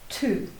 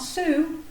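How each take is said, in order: First: The word begins with a t sound. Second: The word begins with an s sound. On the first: The speaker calls it right. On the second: The speaker calls it wrong.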